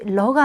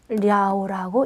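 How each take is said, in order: First: The syllable is a short le sound. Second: The syllable is a gliding liao sound. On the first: The speaker calls it wrong. "러가 아니라" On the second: The speaker calls it right. "랴오라고 읽으셔야 됩니다"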